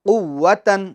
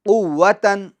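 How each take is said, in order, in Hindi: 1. यह शब्द n की आवाज़ से खत्म होता है। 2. यह शब्द n की आवाज़ से खत्म होता है।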